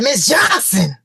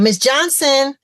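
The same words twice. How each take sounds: First: It is screamed in an unregulated way. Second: It is called loudly but with control.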